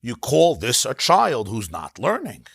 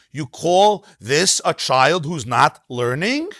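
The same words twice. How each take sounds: First: Plain falling read, "learning" not lifted; flat statement tune. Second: Slow, with a rising sarcastic lilt on "learning"; sarcastic questioning tune. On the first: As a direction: lower and slow, falling on "child" with no question lilt. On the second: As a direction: sing the question up to "learning" in mock disbelief. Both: Shown as a demonstration.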